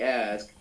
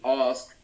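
First: The vowel in ask sounds like an A. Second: The vowel in ask sounds like an O. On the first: This is not how Londoners say it. "they do not say ask" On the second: This is how Londoners say it. "Like the A is like a O. Like they say ask"

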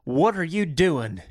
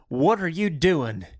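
First: It is said in a Southern drawl. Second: It is said in a Southern drawl.

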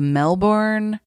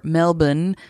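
First: It is said with an American pronunciation. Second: It is said with an Australian pronunciation.

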